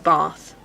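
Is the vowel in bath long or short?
long. The vowel in bath is long.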